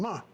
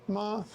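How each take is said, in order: First: The pitch falls sharply from high. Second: The pitch stays high and level. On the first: It means to scold. "ma is to scold or criticize someone" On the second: It means mother. "Ma is mother"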